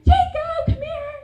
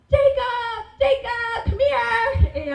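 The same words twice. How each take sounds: First: Much higher, louder call across the house. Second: High, loud call to little brother. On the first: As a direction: yell for him with rising impatience. Calling brother again, louder. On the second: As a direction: lure him in with a sing-song call. Calling brother to the trap. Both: Retold or imitated.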